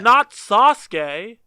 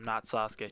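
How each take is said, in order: First: It is said loudly, like an exclamation. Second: It is said flatly, without exclamation.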